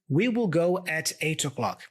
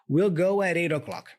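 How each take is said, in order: First: We will is said in full, word by word. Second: We will is contracted and the sounds are linked. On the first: "if you have the habit of always pronouncing this phrase like this" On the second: "I'm joining all the sounds here"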